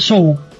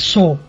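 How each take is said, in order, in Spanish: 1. La palabra se lee como sugiere la ortografía española. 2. La palabra se pronuncia como en inglés. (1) "en España todo el mundo dice Saw" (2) "Y es Saw"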